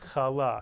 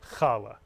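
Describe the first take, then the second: First: The stress is on the second syllable. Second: The stress is on the first syllable.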